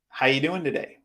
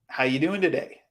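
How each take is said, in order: First: The word 'are' is dropped and speech is compressed. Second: The same.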